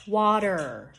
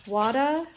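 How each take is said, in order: First: Water with a clear er ending; "water" with the R fully sounded; correct final R. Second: "Wada" for water, ending in uh, higher; "Wada" with an open uh in place of er; dropped final R. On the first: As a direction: finish "water" on a held R. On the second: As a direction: leave the R off "Wada", end on a vowel. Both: Shown as a demonstration. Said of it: "listen to the difference".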